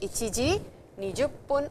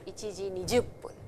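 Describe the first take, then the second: First: The minute word is said as juppun. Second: The minute word is said as jippun. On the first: "Juppun can also be written as jippun" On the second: "whichever you want to say"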